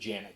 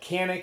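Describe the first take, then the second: First: The name starts with a j sound. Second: The name starts with a hard k sound. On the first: This follows the Turkish pronunciation. "the Turks pronounce it Janik" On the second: This is how many people commonly say it. "a lot of people call it Canik"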